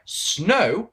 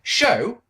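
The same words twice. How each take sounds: First: "Snow" said with a clear sn sound; corrected name. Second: "Show" said instead of "Snow", with an sh sound; misspoken name. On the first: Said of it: "I know it's one letter". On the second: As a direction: slip and say "Show". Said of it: "sorry, that's not right". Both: Real, not acted.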